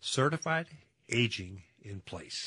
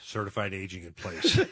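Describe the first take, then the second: First: It is said at a slower pace. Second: It is said at a quick pace.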